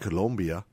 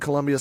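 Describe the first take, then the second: First: It is said like the South American country. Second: It is said like the usual US city name.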